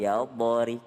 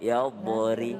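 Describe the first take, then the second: The two takes are said the same way.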